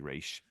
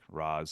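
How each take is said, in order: First: The name ends with an sh sound. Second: The name ends with a z sound. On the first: The speaker calls it right. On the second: The speaker calls it wrong.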